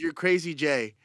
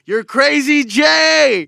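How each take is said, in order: First: Said in the usual way. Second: High, drawn-out, very loud yell; hype shout. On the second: Real, not acted. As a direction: holler the nickname like a hype man. Repeats new nickname as hype yell.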